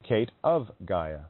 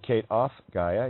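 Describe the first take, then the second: First: The word 'of' ends in a V sound. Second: The word 'of' ends in an F sound. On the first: The speaker calls it right. "You say" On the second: The speaker calls it wrong. "You don't say"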